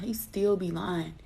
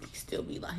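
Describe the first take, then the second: First: Said in the usual way. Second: Whispered aside, gossipy. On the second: Real, not acted. To her viewers, whispering about her lying ex. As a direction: whisper it like a secret.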